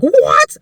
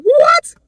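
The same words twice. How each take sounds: First: Sharp rising shocked "What?", louder and higher; the first disbelieving "What?" on reading the email; stunned what. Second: "What?" shrieked far higher and louder, rising. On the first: Opening the winning email, a loud shocked "What?". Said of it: "and I was like". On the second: Rereading the winning email, a shrieked disbelieving "What?". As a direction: let the second "What?" fly up into a shriek. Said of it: "I literally said". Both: Retold or imitated.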